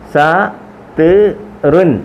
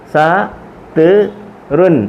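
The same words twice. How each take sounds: Both takes have the same delivery.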